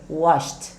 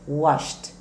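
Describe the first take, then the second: No difference in how they are said.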